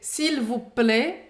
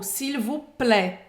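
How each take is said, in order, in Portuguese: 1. A vogal em plaît é mais fechada. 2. A vogal em plaît é mais aberta. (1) "o som do E, como a Emily fala" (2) "o som do E, mais aberto, como, por exemplo, falam em Paris"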